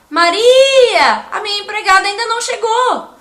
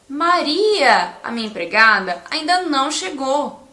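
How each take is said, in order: First: There is no pause after empregada. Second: There is a pause after empregada. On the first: Someone named Maria is told the maid has not arrived. "eu estou falando com alguém que se chama Maria" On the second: The maid is named Maria and has not arrived. "eu quero dizer que a minha empregada se chama Maria"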